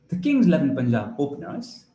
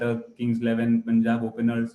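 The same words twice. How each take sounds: First: The voice moves up and down with energy. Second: The voice stays flat and dull throughout. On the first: The speaker calls it right. "Your voice should move up and down" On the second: The speaker calls it wrong. "You should not do it in a dull way"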